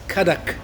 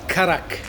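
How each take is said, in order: First: The middle consonant is a D sound. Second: The middle consonant is an R sound. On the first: The speaker calls it right. "it's Kadak, I always write it with a D" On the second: The speaker calls it wrong. "not Karak, if you say it fast, it sounds like an R"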